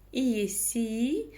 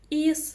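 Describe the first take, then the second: First: The vowel is said as a soft и sound. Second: The vowel is very short, between hard and soft. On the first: The speaker calls it wrong. "Пробуем через мягкую букву «и»" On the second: The speaker calls it right. "нечто среднее по мягкости и звучанию... звучит это очень коротко"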